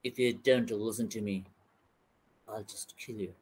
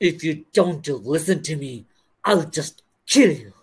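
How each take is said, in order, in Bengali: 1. এটা শান্তভাবে বলা হয়, স্বাভাবিক ও সমান সুরে। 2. এটা কঠোরভাবে বলা হয়, রুক্ষ ও কড়া সুরে। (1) "খুব নরমাল এক্সপ্রেশনে বলবে" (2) "আমেরিকান একটু রাফ অ্যান্ড টাফ হয়"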